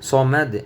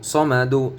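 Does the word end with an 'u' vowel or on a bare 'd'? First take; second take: bare d; u vowel. First: The word ends abruptly on a bare 'd'. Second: The word ends with a short 'u' vowel. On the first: The reader stops on this word. "এখানে অফ করলে সমাদে" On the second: The reader continues without stopping here. "দাল পেশ দু"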